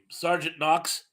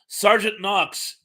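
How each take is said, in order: First: Said in the usual way. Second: "Sergeant Knox" slow and louder, as if it just came back; emphatic recall. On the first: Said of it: "what was the guy's name". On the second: Real, not acted. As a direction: land on "Sergeant Knox" slowly and firmly, recognising it.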